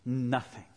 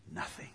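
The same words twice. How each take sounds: First: Said in the usual way. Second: Very soft, low, dropped word; hushed. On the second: Real, not acted. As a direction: let the word fall almost to nothing. Last repeat, God's silence.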